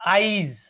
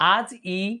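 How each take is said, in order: First: The i vowel comes before the j sound. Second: The i vowel comes after the j sound. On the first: "আজিটা কি হয়ে গেল? আইজ হয়ে গেল।" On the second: "পরের আজ ই এখানে কি, কি ছিল? আজ ই"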